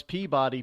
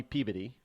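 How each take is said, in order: First: Said in the usual way. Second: "Peabody" lower and quick, "Pea-bitty"; local pronunciation. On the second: Shown as a demonstration. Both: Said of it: "They pronounce Peabody".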